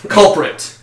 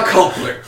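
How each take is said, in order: First: Said in the usual way. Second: CULPRIT with its second R dropped; slurred word. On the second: Real, not acted. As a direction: say "culprit" as "culpuh". Flubbed word, then said again.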